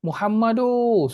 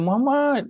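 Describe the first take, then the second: First: The name is shouted with an extra vowel 'u' added. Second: The name is shouted with its final syllable stretched. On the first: This is how Arabic speakers call someone out loud. "dia tambah waw, Muhammadu" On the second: This is how Malay speakers call someone out loud. "kita akan Muhammad macam tu"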